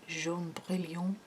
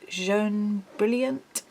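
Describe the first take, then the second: First: The name is said with French pronunciation. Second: The name is read with English pronunciation. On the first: The speaker calls it right. "Maybe it's French, how would you say it?" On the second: The speaker calls it wrong. "I'm saying that wrong"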